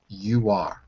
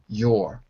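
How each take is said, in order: First: It is two full syllables with stress. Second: It is reduced to one weak syllable. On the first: "It's a strong form" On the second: "It's no longer a weak form"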